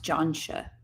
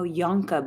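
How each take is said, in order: First: The name ends with a 'sha' sound. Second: The name ends with a 'ka' sound. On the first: The speaker calls it right. "it's pronounced Johnsha" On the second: The speaker calls it wrong. "but it's pronounced Johnsha"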